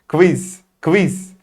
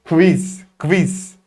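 Both takes have the same delivery.

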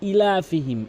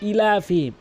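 No difference in how they are said.

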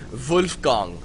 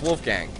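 First: The name is said with a German pronunciation. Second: The name is said with an English pronunciation.

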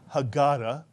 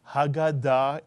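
First: The stress falls before the last syllable. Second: The stress falls on the last syllable. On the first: This is the familiar English way of saying it. The speaker calls it wrong. "we're used to calling it the Haggadah" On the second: This is how it is said in Hebrew. The speaker calls it right. "it's actually Haggadah in Hebrew"

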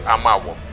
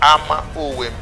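First: The name is run together as one word. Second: The name is said as two separate words. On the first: The speaker calls it wrong. "which is all mispronounced today as Amawom" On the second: The speaker calls it right. "but it's Ama Owem"

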